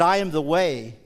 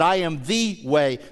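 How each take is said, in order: First: The stress falls on the word way. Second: The stress falls on the word the.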